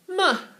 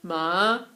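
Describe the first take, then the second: First: It is said with Mandarin's fourth tone. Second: It is said with Mandarin's third tone.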